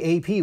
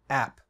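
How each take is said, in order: First: It is spelled out letter by letter. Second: It is said as the single word app. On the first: The speaker calls it right. "we pronounce A P A P" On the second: The speaker calls it wrong. "We don't say app because that might be confused with another app"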